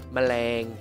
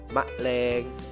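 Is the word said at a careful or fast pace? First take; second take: fast; careful. First: The word is said quickly and compressed. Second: The word is said slowly and carefully.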